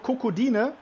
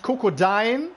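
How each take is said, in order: First: The name ends with a separate e sound. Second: The name ends without a separate e sound. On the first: The speaker calls it right. "Das E aussprechen" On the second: The speaker calls it wrong. "Nicht Kokodein oder so"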